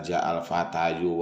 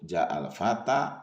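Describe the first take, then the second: First: The last word ends with an extra 'yu' syllable. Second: The last word ends plainly on a long 'a'. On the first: The speaker calls it wrong. "Tidak usah dibaca" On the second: The speaker calls it right.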